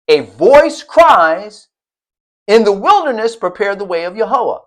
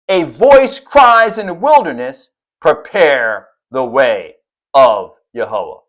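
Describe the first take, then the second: First: There is a pause right after 'cries'. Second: There is a pause right after 'wilderness'. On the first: The call is to prepare a way in the wilderness. "the colon that separates a voice cries from the latter" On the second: The one calling is in the wilderness. "as opposed to"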